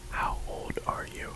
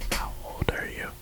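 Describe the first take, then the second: No difference in how they are said.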